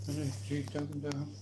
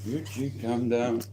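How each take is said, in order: First: Much softer, hushed calming. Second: Said in the usual way. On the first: Real, not acted. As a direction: hush them gently, almost under your breath. Calming two animals nearby.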